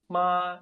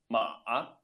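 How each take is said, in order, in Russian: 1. Произносится тоном, который даёт 'mother'. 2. Произносится тоном, который даёт 'horse'. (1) "«ма» — это «мама»" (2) "«ма-а» — это «лошадь»"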